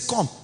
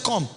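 First: It sounds pleased and impressed. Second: It sounds angry and displeased.

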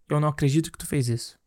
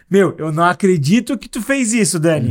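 First: It sounds reproachful and displeased. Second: It sounds happily surprised and pleased.

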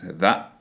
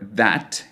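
First: The final T is a glottal stop. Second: The final T is fully released.

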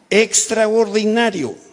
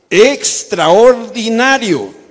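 First: It is said plainly, without extra energy. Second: It is said with lively Mexican energy.

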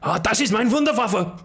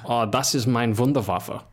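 First: It is shouted very loudly. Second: It is said at normal volume.

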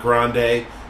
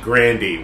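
First: The name ends with an 'ay' sound. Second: The name ends with an 'ee' sound. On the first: The speaker calls it wrong. "It's not Grande" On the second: The speaker calls it right. "It's actually [name], which makes her sound so much more basic"

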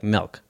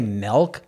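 First: The vowel has a slight twang. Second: The vowel is plain, with no twang. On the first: "they'll be like milk... slight twang on the eye" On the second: "they don't say milk"

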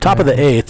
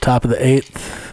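First: It is said in a sports announcer voice. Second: It is said in an ordinary conversational voice. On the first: "Was that a good announcer voice?" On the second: "Is that really your sports announcer voice?"

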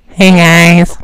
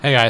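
First: It is said in a put-on voice. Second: It is said in a normal voice.

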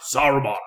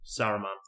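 First: It is said in a grand fantasy-film accent. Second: It is said plainly, without the fantasy-film accent. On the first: "Saying it in a Lord of the Rings accent" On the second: "Say it without it"

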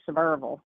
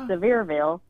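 First: The last syllable is reduced, not 'ville'. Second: The last syllable is a full 'ville'. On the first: "if you're from here, you don't say Ville" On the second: "you just add Ville on the end of it"

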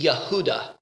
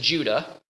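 First: The name begins with a Y sound. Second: The name begins with a J sound. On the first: This is the Hebrew form of the name. "if you said my name in Hebrew, it would be Yehuda. So there's no J" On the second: This is the English form of the name. "My Hebrew name is Judah"

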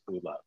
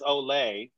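First: The name is said like 'Ulla'. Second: The name is said like 'Olay'. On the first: The speaker calls it right. "it's pronounced Ulla" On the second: The speaker calls it wrong. "I pronounced it as Olay"

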